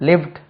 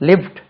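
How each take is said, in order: No difference in how they are said.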